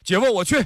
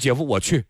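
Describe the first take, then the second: First: It is said at the highest pitch. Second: It is said at a low, normal pitch.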